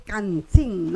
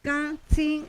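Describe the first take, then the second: First: "can, sin" with each N fully sounded, as in Spanish; Castilian-style final N. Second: "Can, sin" with the final Ns as nasalized vowels. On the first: Teacher showing how not to say it, with Spanish Ns. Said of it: "no se pronuncia como castellano". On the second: Teacher showing the Shipibo word as pronounced, nasalized endings. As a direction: let "Can" and "sin" end in the nose, no full N. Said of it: "es una nasalización". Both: Shown as a demonstration.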